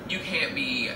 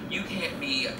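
The two takes are said the same way.

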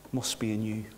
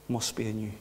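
No difference in how they are said.

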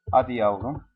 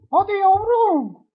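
First: Said in the usual way. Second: "Hadi yavrum" squeaked very high, slow and sweet; falsetto coaxing. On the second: Acted. Gamer coaxes his bird to fly, in falsetto baby talk.

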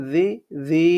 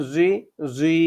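First: জি as a soft "dhee"; soft letter. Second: জি as a heavy "zui"; hard letter. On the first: Teacher contrasting two letters, জি said soft. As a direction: soften the consonant of জি, then hold it. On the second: Teacher contrasting two letters, জি said hard and heavy. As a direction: make জি thick and heavy, then hold it. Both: Shown as a demonstration. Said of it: "শক্ত, এটা হবে নরম".

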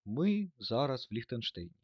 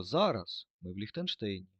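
First: "ми" punched, the rest slower and trailing down; slow, deliberate read with the weight on "ми"; stress on ми. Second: "зараз" hit loud at the start, then falling; stress on зараз. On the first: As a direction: lead with a firm "ми" and let the line fall. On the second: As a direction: punch the word "зараз" first. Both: Shown as a demonstration. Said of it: "щоб звучало наше речення?".

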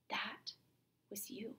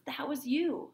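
First: Breathy hushed whisper on was you; whispered accusation. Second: Raised, firm stage accusation pressed on you; insistent accusation. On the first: Teacher as Roxanne realizing the truth, hushed whisper. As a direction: drop to a bare whisper, as if realizing. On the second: Teacher as Roxanne confronting Cyrano, pressing accusation. Lovers' scene, accusation repeated. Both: Acted.

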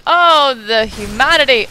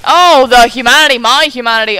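First: Hammed-up tragic wail; overacted dramatic lament; mock despair. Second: Hammed-up tragic wail, much louder; overacted loud lament over lost humanity; mock despair, louder. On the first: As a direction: play the dying hero over the top. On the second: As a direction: bellow it like a stage tragedy. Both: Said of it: "mock melodrama".

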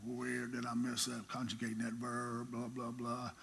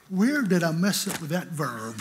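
First: Soft, low mutter over his books; muttering to himself. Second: Louder, laughing through the line; laughing retelling. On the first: Preacher muttering to himself over his Greek verb, quietly. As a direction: puzzle it out under your breath. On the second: Preacher laughing as he quotes himself back at his books. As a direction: chuckle at your own nerve. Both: Retold or imitated.

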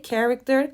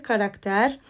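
First: Character said the English way, /kerekter/, stress on the first syllable; English pronunciation, voice slightly up. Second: Karakter said the Turkish way, all a's open; Turkish pronunciation. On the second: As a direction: say karakter as a plain Turkish word. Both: Shown as a demonstration.

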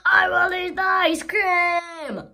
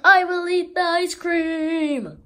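First: Slow, higher, much louder wailing cry; a big dramatic crying yell; anguished shout. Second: Higher, much louder proclamation; a big triumphant shout; loud declaration. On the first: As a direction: wail it out in greedy anguish. Character decides loudly, anguished. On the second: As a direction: announce it to the world. Character decides loudly. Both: Acted.

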